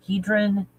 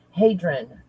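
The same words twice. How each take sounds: First: "Hedron" said as HEE-drun; unsure HEE-drin for "Hedron"; mispronounced "Hedron". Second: "hadron" said as HAY-drin; slow HAY-drin for "hadron"; corrected "hadron". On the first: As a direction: say "Hedron" with a long ee in the first syllable. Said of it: "Am I saying it right?". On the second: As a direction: say "hadron" with a long ay in the first syllable. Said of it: "Oh, it is that one". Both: Real, not acted.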